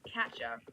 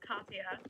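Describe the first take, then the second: First: The middle consonant sounds like an English J. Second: The middle consonant sounds like an English Y. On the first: The speaker calls it wrong. "I was pronouncing it wrong" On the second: The speaker calls it right. "a J in Swedish sounds like a Y"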